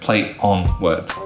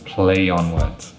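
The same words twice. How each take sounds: First: Play and on are separated without linking. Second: A y sound joins play to on smoothly. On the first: The speaker calls it wrong. "That's not smooth, it's not native, it's not fluent" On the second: The speaker calls it right.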